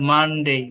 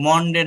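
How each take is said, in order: First: "মানডে" with an uh vowel and dei ending; careful "মানডে", mun-dei; correct Monday vowel. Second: "মনডে" with a rounded o, short de; wrong Monday vowel. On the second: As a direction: say "মনডে" as mon-de. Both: Shown as a demonstration. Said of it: "মনডে না তাহলে এটা".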